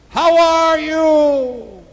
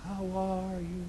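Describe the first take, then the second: First: Long, high call into the wilderness; screamed out. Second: Soft, drawn-out echo coming back; distant echo. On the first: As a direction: holler it out, stretching every word. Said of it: "He screamed out". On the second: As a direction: answer like a faraway echo. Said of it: "Shortly after he heard". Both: Acted.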